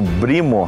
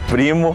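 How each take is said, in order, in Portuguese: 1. A palavra começa com um som de B sonoro. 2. A palavra começa com um som de P surdo. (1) "nós vemos os árabes falando brimo" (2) "ao invés de primo"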